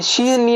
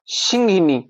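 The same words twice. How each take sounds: First: सिंहनी with no middle i; mistaken pronunciation. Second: सिंहिनी with a short middle i; correct pronunciation. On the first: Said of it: "है वो गलत है". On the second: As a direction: sound all three syllables of सिंहिनी. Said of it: "सिंह बनेगा". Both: Shown as a demonstration.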